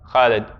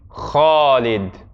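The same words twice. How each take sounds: First: The name is said the everyday dialect way. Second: The name has the a vowel right after kh. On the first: The speaker calls it wrong. "they typically say Khalid" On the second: The speaker calls it right. "to say it correctly would be Khalid"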